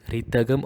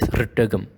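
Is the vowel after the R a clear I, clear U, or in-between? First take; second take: clear I; in-between. First: A full clear I vowel follows the R. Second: A brief sound between I and U follows. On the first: The speaker calls it wrong. "not a blatant re" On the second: The speaker calls it right. "Make it as ritagam"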